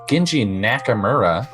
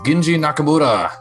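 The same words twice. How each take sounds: First: The name is said in a strong American accent. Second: The name is said without an American accent.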